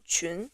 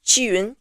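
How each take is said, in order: First: "Qun" as one blended Mandarin syllable; name blended together. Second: "Qiyun" split into qi plus yun; teacher separating the sounds qi and yun in "Qiyun"; name broken into sounds. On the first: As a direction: blend qi and yun into a single "Qun". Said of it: "my name is Qun". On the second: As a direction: sound out "Qiyun" in two parts, softly. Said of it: "Neither qi nor yun exist in English". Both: Shown as a demonstration.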